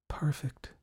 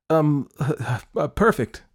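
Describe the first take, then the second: First: Soft, airy whisper; dreamy whispered aside; whispered aloud. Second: High, louder, stumbling cover-up; embarrassed hesitant repeat; flustered repeat. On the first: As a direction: let it slip out in a whisper. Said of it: "she whispered out loud". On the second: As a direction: blurt it nervously after false starts. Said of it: "she said again". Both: A narrator's reading.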